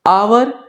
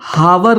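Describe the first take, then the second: First: The word starts with a vowel, two syllables. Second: The word begins with an audible h sound. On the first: The speaker calls it right. "ये आवर" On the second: The speaker calls it wrong. "ये हावर नहीं होता है"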